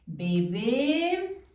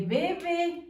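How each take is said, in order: First: "Bebé" with stress on the final é; "Bebé", accent on the last syllable. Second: "bebe" with stress on the first be; "bebe", stressed at the start; stress on first syllable. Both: Shown as a demonstration. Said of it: "si no le ponemos acento en la última E".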